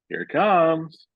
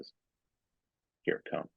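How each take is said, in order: First: It is delivered big, dramatic and overplayed. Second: It is delivered quiet, tired and understated. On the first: It makes the listener suspicious. The speaker calls it wrong. "He's doing it's over the top" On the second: It does not raise suspicion. The speaker calls it right. "take it down a little bit"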